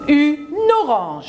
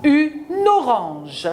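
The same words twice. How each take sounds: First: Une orange with the n linked, Une on top; liaison marked. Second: Une orange slowed to spell out the link yn-ɔʁɑ̃ʒ; slow liaison. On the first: Teacher to pupil, showing the liaison in Une orange. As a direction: tie the n of Une onto orange, Une stressed. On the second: Teacher slowly modelling the liaison for the pupil. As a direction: drag Une orange out slowly, linking the n clearly. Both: Shown as a demonstration. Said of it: "Je marque la liaison".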